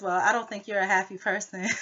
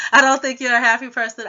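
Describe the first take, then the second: First: Retold line said with a laugh breaking in; laughing through the quote. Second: Louder, higher imitation of the housemate; mock loud quote. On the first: Vlogger laughing as she retells the housemate's jab. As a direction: laugh while quoting her. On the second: Vlogger loudly imitating the housemate's insult. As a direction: mimic her jab, loud and pitched up. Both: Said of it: "And then she says".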